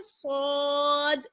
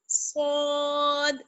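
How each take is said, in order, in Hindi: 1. पहली आवाज़ मोटी और भारी है। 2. पहली आवाज़ मोटी और भारी है।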